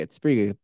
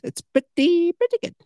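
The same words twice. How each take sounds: First: Said in the usual way. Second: "It's pretty, pretty good" jumped way up high and a bit louder; squeaky high repeat. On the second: Shown as a demonstration. Host praising his own podcast in a high squeaky voice. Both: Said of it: "Pretty good podcast".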